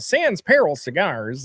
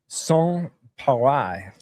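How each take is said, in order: First: The second word is said like English peril. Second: The second word is said like pa-ray. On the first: The speaker calls it wrong. "I hadn't researched how to say it" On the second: The speaker calls it right. "you're gonna say"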